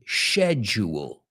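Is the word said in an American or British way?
British. The word is said the British way. "and British say schedule"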